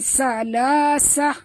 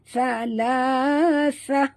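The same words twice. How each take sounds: First: It begins with a plain hissing s-sound. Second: It begins with a th-sound, tongue between teeth. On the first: The speaker calls it wrong. "bukan salasah. Itu huruf sin" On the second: The speaker calls it right. "ini huruf sa"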